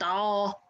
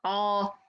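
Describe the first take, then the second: No difference in how they are said.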